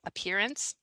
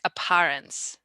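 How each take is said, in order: First: The middle vowel sounds like 'ear'. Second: The middle vowel does not sound like 'ear'. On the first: The speaker calls it right. "So appear, like ear" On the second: The speaker calls it wrong. "I think you said it more like apparence"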